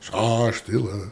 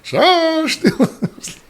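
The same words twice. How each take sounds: First: It is said at the softest volume. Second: It is said at the loudest volume. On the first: "each time he says, raise your voice" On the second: "raise your voice"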